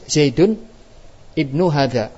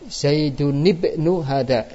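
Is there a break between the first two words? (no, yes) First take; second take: yes; no. First: There is a break between the first two words. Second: The first two words run together without a break. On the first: "Kalau kita baca putus" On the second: "kita baca sambung"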